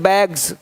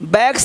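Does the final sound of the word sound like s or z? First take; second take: z; s. First: The word ends with a z sound. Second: The word ends with an s sound. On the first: The speaker calls it right. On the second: The speaker calls it wrong.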